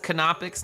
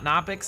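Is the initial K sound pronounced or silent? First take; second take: pronounced; silent. First: The initial K sound is pronounced. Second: The initial K sound is silent. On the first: The speaker calls it right. "it was pronounced as Canopix" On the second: The speaker calls it wrong. "not Nopix"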